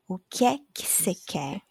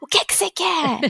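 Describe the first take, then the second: First: It is said in a plain, neutral way. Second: It is said in an annoyed way.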